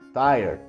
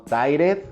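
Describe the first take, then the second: First: It is said with one syllable. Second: It is said with two syllables. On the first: The speaker calls it right. "Solo una sílaba" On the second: The speaker calls it wrong. "No tired"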